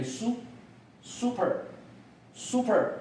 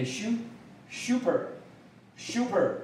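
First: American "super", starting with a plain "soo"; American model of "super" for learners; American pronunciation. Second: British "super", starting with a "syoo" or "shoo" glide; British model of "super" for learners; British pronunciation. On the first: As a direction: say "super" slowly American-style, "SOO-per". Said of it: "美国发音是念". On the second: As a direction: say "super" slowly British-style, "SHOO-per". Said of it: "英国的发音是念". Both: Shown as a demonstration.

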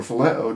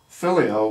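First: Phileo as fih-LAY-oh; second-syllable stress. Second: Phileo as FIL-ee-oh; first-syllable stress. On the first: Preacher offering the alternative pronunciation, phileo stressed in the middle. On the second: Preacher offering one pronunciation of a Greek word, Phileo stressed up front. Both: Shown as a demonstration. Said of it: "depending on how you, uh, pronounce it".

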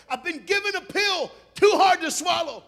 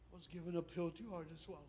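First: Loud, high shout of bitter grief; anguished outcry. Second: Hushed, grieving confession; somber lament. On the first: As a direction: cry it out at full force. Acts out Ruth's bitter cry. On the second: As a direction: let it fall softly, subdued. Somber echo of earlier cry. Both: Acted.

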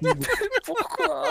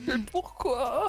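First: High, loud exasperated pourquoi; quick outraged yelp; raging gamer. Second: Slow, wailing mock cry; raging gamer. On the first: (joueur énervé qui crie pourquoi) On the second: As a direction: drag out the despairing question. (joueur dégoûté qui se lamente lentement) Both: Real, not acted. His plan blew up.

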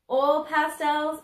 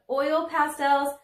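First: Oil pastels in a Southern drawl of her own; Southern accent. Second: Oil pastels said slowly and carefully; proper pronunciation. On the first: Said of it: "I have a bit of a Southern accent". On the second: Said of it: "say oil pastels the proper way". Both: Shown as a demonstration.

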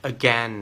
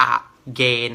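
First: "again" as uh-GEN, short EH in second syllable; correct short vowel. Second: "again" as อะ-เกน, two separate syllables, long AY; mispronounced vowels. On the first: Tutor models the word for students, correct short vowel. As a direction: say "again" to rhyme with "ten". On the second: Tutor shows students the wrong reading, mispronounced vowels. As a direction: split "again" into ah-GAYN. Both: Shown as a demonstration. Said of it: "ไม่ใช่ again นะครับผม".

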